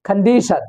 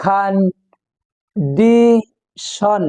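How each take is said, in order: First: Said in the usual way. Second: CONDITION broken into three slow syllables, long pause after each; split into syllables. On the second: Shown as a demonstration. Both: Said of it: "আলাদা আলাদা করে".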